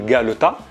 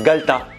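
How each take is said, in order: First: The middle vowel is pronounced in full. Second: The middle vowel is dropped entirely. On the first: "Ça s'écrit le galetas" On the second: "le E qui est au milieu là, il le mange"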